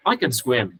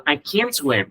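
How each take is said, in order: First: "can" reduced to a quick, unstressed k'n; weak "can". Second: "can't" stressed, full vowel, t unheard; strong "can't". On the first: Teacher shows students "I can swim", weak "can". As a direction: glide over "can" onto "swim". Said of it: "có thể nó sẽ đọc rất yếu". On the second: Teacher contrasts the negative, heavily stressed "can't". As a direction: punch "can't" and drop its t. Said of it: "nó nhấn rất mạnh chữ can nó lên". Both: Shown as a demonstration.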